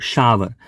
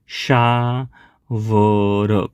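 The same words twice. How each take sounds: First: Said in the usual way. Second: શાવર stretched out slowly, sh-aa-ver; slow pronunciation. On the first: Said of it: "ખાસ સમજજો". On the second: Shown as a demonstration. Teacher showing students how to pronounce શાવર, very slow. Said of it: "આનો ઉચ્ચાર શું થશે?".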